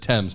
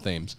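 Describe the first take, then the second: First: Thames is pronounced the way the London river is. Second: Thames is pronounced the way the Connecticut river is. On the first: It names the river in London. The speaker calls it right. "this is not a river in uh, in Connecticut, therefore it is the Thames" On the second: It names the river in Connecticut. The speaker calls it wrong. "not the Thames"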